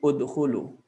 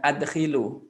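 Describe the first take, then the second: First: The word begins with a 'u' vowel sound. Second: The word begins with an 'a' vowel sound. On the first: The speaker calls it right. "ini dibaca dhamma" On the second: The speaker calls it wrong. "bukan adkhilu"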